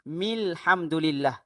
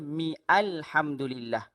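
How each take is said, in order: First: The words run together with no separate vowel. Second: A separate vowel begins the second word. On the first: The speaker calls it right. "Cara bacaan dia" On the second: The speaker calls it wrong. "Jangan baca"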